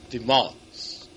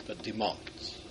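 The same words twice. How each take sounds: First: Said in the usual way. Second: "demands" said low and soft, drawn out; quiet stress on demands. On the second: Shown as a demonstration. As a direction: let "demands" sink quietly with weight. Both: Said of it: "not just expects".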